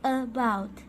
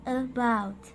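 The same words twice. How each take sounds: First: The first vowel is a short soft schwa. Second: The first vowel is a short soft schwa.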